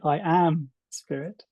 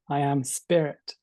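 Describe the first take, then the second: First: The emphasis falls on the word am. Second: The emphasis falls on the word spirit.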